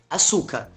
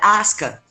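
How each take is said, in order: First: The name has three syllables, with a full middle vowel. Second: The name has two syllables, with the middle vowel dropped. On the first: The speaker calls it wrong. "a gente falou a série inteira como Açúcar" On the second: The speaker calls it right. "não era açúcar a pronúncia, era asca. Que aí muda completamente o som"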